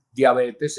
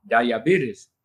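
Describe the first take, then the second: First: Diabetes said the Spanish way, dia-BE-tes; the wrong Spanish diabetes, pure vowels. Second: Diabetes said dai-a-BEE-tiz, English style. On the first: Teacher showing what not to say, Spanish diabetes. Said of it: "no podemos pronunciar diabetes". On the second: Teacher giving the correct English pronunciation of diabetes. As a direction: say diabetes the American way. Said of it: "tenemos que decir diabetes". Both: Shown as a demonstration.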